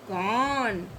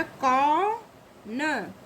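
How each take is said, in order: First: कौन lower, one long syllable; joined-up word. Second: कौन very slowly as kau, then na; syllable by syllable. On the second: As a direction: split कौन after a long kau. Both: Shown as a demonstration. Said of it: "का में औ की मात्रा लगी".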